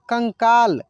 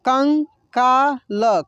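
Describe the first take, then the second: First: Said in the usual way. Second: कंकाल drawn out very slowly as कं-का-ल; slow syllable by syllable. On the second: Shown as a demonstration. Teacher sounds out the word slowly for students. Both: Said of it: "कैसे इसको पढ़ेंगे".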